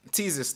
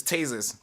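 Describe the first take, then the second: First: "Tasers" said as TEE-zers; alternative pronunciation. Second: "tasers" said as TAY-zers; standard pronunciation. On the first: Host showing how people differ, "Tasers" as TEE-zers. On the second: Host showing how people differ, "tasers" as TAY-zers. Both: Shown as a demonstration. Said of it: "A lot of people pronounce it different".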